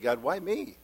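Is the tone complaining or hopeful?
hopeful. Said in a hopeful, wondering tone. The hardship is a privilege and a chance to serve. The speaker calls it right. "Why do I get to go through this?"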